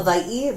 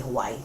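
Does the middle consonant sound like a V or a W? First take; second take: V; W. First: The middle consonant sounds like a V. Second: The middle consonant sounds like a W. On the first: This is the proper local way. "the proper way to say it is Hawaii. It's kind of like a V sound" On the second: This is the common everyday way. "a lot of people just say Hawaii"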